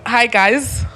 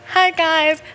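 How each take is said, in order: First: It is said in the speaker's natural voice. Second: It is said in a put-on YouTuber-girl voice.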